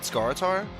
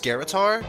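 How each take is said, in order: First: The name begins like the plain word scar. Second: The name begins like the word scarab. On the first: This is how the speaker has always said it. "not Scaritar, like I've been saying since whenever it released" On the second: The name is derived from the word scarab. "part of Scartar's name comes from Scarab, so it's probably pronounced Scaritar"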